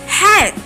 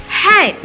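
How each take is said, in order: No difference in how they are said.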